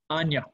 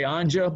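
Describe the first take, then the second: First: The middle consonant is a Y sound. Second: The middle consonant is a J sound. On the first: "I like to say it the way they say it there" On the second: "We could say Anja"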